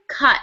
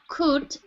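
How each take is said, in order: First: The vowel is a short 'uh' sound. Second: The vowel is a long 'oo' sound. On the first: The speaker calls it right. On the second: The speaker calls it wrong. "not coot"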